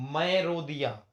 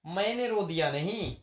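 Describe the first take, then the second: First: मैं stressed with a falling tune; teacher confirms the right form, stressing मैं; correct form affirmed. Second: मैंने stressed, then नहीं falling away as a dismissal; teacher rejects the wrong form मैंने, stressing मैंने; wrong form rejected. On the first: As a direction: state the correct मैं firmly. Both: Shown as a demonstration.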